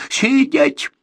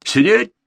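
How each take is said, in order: First: Loud, high barked order; shout. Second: Loud, higher command; shout. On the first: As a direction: yell the command at him. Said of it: "крикнул Борзенко". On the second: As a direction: throw the order right back at him. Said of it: "крикнул Игорь". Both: Acted.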